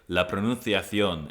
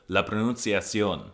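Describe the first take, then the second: First: The c is said with a lisp, like th. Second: The c is said as a plain s.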